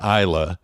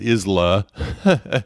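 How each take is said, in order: First: The name is said the local way. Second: The name is sounded out as it is spelled. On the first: The speaker calls it right. "is how that's actually pronounced" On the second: The speaker calls it wrong. "I was mispronouncing it"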